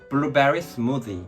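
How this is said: It is said in a Seoul-style accent. The speaker calls it right. "서울에서는 그러면은 주문 못해 ... 자 따라해봐"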